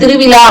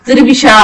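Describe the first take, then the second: First: The last consonant is a retroflex 'zh' sound. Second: The last consonant is a 'sh' sound. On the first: "திருவிழா அப்படின்றத" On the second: "கொள்ளிடக்கரையில ... திருவிஷா அப்படின்றாங்க"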